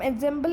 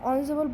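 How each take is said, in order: First: The word begins with an 'en' sound. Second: The word begins with an 'on' sound. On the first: The speaker calls it wrong. "तो इसको हम एंजेम्बल नहीं बोलेंगे" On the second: The speaker calls it right. "ऑनजम्बल बोलेंगे"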